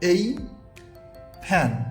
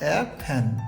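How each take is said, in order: First: The article sounds like the letter name 'ay'. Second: The article sounds like a short reduced 'uh'. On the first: "article হিসেবে বসে এই" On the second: "তখন এখানে উচ্চারণ হবে এ fan"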